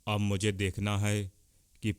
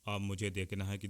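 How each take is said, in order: First: The voice is recorded at a higher input level. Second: The voice is recorded at a low input level. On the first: "अब मैं अपनी आवाज़ पच्चीस percent की आवाज़ में रिकॉर्ड कर रहा हूँ।" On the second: "अब मैं अपने माइक से दस परसेंट की आवाज़ को रिकॉर्ड कर रहा हूँ।"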